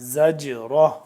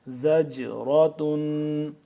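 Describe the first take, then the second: First: The word ends softly with an 'ah' sound. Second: The word ends with a full 'tun' syllable. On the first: The reader stops at this word. "अगर वक्फ करेंगे तो क्या हो जाएगा, ... गोलता को हम हा की में बदल देंगे" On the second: The reading continues without stopping. "ता दो पेश तुन"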